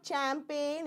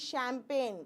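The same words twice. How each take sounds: First: The word begins with a ch sound. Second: The word begins with an sh sound. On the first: The speaker calls it wrong. "It is not champagne" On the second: The speaker calls it right. "C H becomes S"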